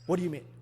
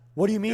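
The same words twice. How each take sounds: First: It sounds warm and concerned. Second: It sounds curious and inquisitive. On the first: The speaker cares about the other person. "Number four, empathetic slash concerned" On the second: The speaker genuinely wants to know more. "Second tonality, curiosity"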